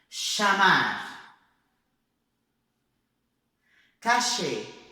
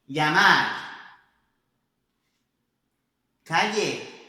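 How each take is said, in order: First: The 'll' sounds like 'sh', Argentine style. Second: The 'll' sounds as in Spain. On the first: "Como se fosse na Argentina" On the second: "como se fosse na Espanha"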